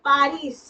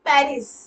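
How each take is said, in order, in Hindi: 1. पहला स्वर एक खुला 'ah' ध्वनि है। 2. पहला स्वर 'eh' ध्वनि है।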